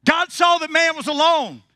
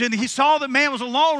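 First: Louder, higher, pushing hard on saw; bigger retake. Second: Said in the usual way. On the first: Shown as a demonstration. Preacher retakes it to draw a stronger amen, louder. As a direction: give it more fire this time. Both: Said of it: "I'm gonna give you another chance".

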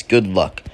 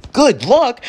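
First: Said in the usual way. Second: High, loud, disbelieving squawk; hammed-up indignant shock; incredulous outburst. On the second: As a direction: throw it back in outraged disbelief. Outraged echo of the note.

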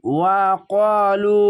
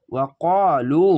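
First: ওয়া ক্বালু slow with ক্বা long; slow recitation. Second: Said in the usual way. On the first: Shown as a demonstration. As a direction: stretch ক্বালু by one alif. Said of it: "পাশে খালি আলিফ এক আলিফ টেনে". (ওয়া ক্বালু টেনে পড়া) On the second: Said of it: "লাম অপেশ লু".

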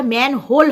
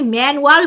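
First: ম্যানহোল with a clear h and "hole" ending; corrected manhole. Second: ম্যানুয়াল said with "-ual" ending, no h; mispronounced manhole. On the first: Correcting the slip for viewers, ম্যানহোল said with "-hole". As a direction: say ম্যানহোল as man plus hole. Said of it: "তো সেটা ম্যানহোল হবে". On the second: Owning up to yesterday's slip, mispronounced ম্যানুয়াল ending in "-wal". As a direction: say ম্যানুয়াল with a w-glide in place of "hole". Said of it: "অবশ্যই ভুল বলেছিলাম". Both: Shown as a demonstration.

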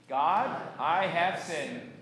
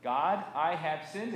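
First: Slow, firm recitation, louder; congregational recitation. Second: Said in the usual way. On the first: Shown as a demonstration. Pastor leading congregation's confession, slow and deliberate recitation. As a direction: draw out each word for joint speaking. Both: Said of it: "and say it with me".

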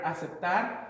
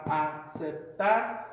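First: Said in the usual way. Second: "aceptar" slowly broken into its syllables; teacher's slow breakdown of "aceptar". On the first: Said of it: "we have an example here, the word". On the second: Shown as a demonstration. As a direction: sound out "aceptar" one syllable at a time. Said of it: "You kinda hear that the emphasis on the last syllable".

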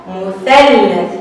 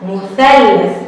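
First: مثلث stretched very slowly; slow model word. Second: Said in the usual way. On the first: Shown as a demonstration. Teacher to children, modelling مثلث very slowly. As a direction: draw out every sound of مثلث. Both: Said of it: "أث".

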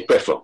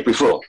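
First: "prefer" said the Vincentian way, first syllable "preh"; "prefer" with a short e up front; Vincentian pronunciation. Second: "prefer" said the Grenadian way, first syllable "pree"; "prefer" with a long ee up front; Grenadian pronunciation. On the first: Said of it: "Vincentians say prefer". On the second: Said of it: "Grenadians say prefer". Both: Shown as a demonstration.

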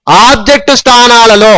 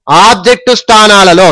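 No difference in how they are said.

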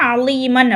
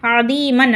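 First: அலீமன் with an l in the middle; l in place of dh in அலீமன்; mistaken l sound. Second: அதீமன் with a dh in the middle, long ee; dh, not l, in அதீமன்; heavy dh sound. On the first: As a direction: say அலீமன் as "a-leee-man", the common misreading. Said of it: "சில பேர் என்ன பண்ணுவீங்க?". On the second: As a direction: say அதீமன் as "a-dheee-man". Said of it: "நான் இதை எப்படி படிக்கிறேன்?". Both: Shown as a demonstration.

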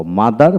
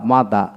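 First: "মাদার" with the final r sounded; fully pronounced. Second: "মাদা" without a final r; non-rhotic British-style "মাদা"; r dropped. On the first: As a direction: say all of "মাদার", through to the r. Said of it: "মাদার পোড়াটাই বলবো". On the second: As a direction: end "মাদা" on an open aa. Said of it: "এইভাবে বলবো না". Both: Shown as a demonstration.

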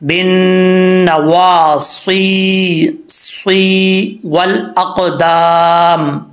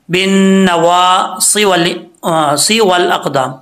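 First: "नवासी" very slow, with the final ee held long; slow recitation, "सी" stretched before "वल अक़दाम"; lengthened ya. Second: "सी" in "बिन नवा सी वल अक़दाम" cut short, no held ee; "सी वल" with the ee left unstretched; dropped long ya. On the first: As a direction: chant "बिन नवासी, सी वल अक़दाम", drawing out "सी". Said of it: "एक अलिफ की मिकदार इसको लंबा करेंगे". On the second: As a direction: demonstrate the mistake, hurrying "सी" straight into "वल". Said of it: "जो या है वो छोड़ देते हैं". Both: Shown as a demonstration.

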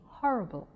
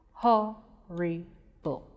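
First: Said in the usual way. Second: "Horrible" slowly split into three separate syllables. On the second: Shown as a demonstration. Teacher breaking "Horrible" up for pupils, slow and separated. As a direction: break "Horrible" apart, pausing after each syllable. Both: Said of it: "When we break it".

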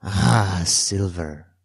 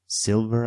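First: "Silver" falling after a loud "Ah"; grim confirmation. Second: "Silver?" as a higher, light question. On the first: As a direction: confirm "Silver" firmly, pitch coming down. Castaway confirms the dreaded name. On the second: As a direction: ask "Silver?" with raised pitch. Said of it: "I asked". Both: A narrator's reading.

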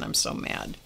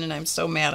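First: Breathy hush of remembered tears; unvoiced, hushed repeat. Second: Said in the usual way. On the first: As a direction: whisper it like you're crying again. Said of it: "I'm crying".

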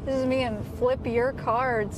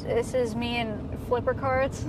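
First: "Flip Your Cards" slowly, as three separate words; corrected name. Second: "Flipper Cards" with the first two words run together as Flipper; slow intro, saying "Flipper" as one word in "Flipper Cards"; mispronounced name. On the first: Host redoing the intro after a complaint, "Flip Your Cards" in separate words. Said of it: "That's not how it's pronounced". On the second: Host introducing co-host with the name mispronounced, "Flipper Cards" as Flipper. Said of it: "why do you say it like that? That's not how it's pronounced". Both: Real, not acted.

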